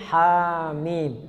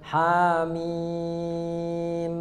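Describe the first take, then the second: First: The word is said plainly without doubling or holding. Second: The final m is held out long. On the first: The speaker calls it right. "nggak ada tasdid, biasa aja hamim" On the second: The speaker calls it wrong. "jangan juga ujungnya ditahan, jangan hamim"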